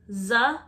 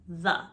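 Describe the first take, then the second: First: The first sound is hard, without the tongue out. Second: The first sound is a th, tongue out. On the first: The speaker calls it wrong. "you're saying the instead of the" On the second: The speaker calls it right. "you're saying the instead of the"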